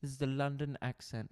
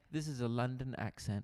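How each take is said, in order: First: Posh take on a London accent. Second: Rougher try at a London accent. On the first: Host given London, in a too-posh English accent. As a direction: aim for London, land on posh. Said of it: "the posh one". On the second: Host corrected from posh, in a mock London accent. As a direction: attempt everyday London, less posh. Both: Shown as a demonstration.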